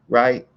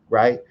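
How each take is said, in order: The two takes are said the same way.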